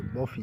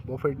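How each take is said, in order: First: बॉफी ending on an open "ee"; silent t. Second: बॉफेट with the final t sounded; wrong pronunciation. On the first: Teacher giving students the correct reading, t silent. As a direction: say बॉफी with no t at the end. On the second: Teacher warning students off the spelt reading, t sounded. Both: Shown as a demonstration. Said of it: "बॉफेट नहीं पढ़ेंगे".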